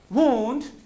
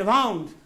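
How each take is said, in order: First: The vowel sounds like 'oo', as in 'woond'. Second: The vowel sounds like 'ow', as in 'wownd'. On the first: It means an injury. "when it is an injury" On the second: It is the past form of the verb 'wind'. "when it is used as verb. Past form of wind"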